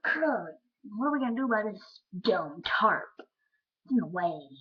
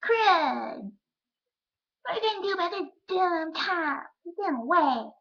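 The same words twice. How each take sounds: First: Lightly voiced kid complaint, loud; a hint of little-kid voice; five-year-old self. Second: Put-on high, loud little-kid voice; put-on squeaky kid complaint; five-year-old self. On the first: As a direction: grumble like a dismayed kindergartner. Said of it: "Five-year-old. I think I went". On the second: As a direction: whine it loudly like an upset kindergartner. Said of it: "I said it like that more".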